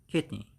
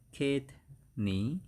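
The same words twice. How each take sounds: First: Said in the usual way. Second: "kidney" drawn out slowly as two separate syllables; slow teaching "kidney", gap between the syllables. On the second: Shown as a demonstration. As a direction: split "kidney" into kid, pause, nee. Repeats the word split up.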